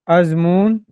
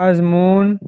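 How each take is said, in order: The two takes are said the same way.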